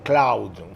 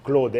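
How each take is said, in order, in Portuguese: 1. A vogal vai deslizando de 'a' para 'u'. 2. A vogal é um 'o' simples e único. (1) "em francês, a gente não fala Cloud" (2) "você tem que botar um O e esquecer o A U"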